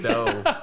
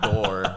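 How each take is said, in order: First: The final R sound is dropped completely. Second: The final R sound is clearly pronounced. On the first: This is how it is said when rapping. "you just always just shave the R off the end" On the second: This is how it is said in normal speech. "you'll never pronounce it as like door"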